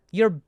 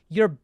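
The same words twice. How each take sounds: The two takes are said the same way.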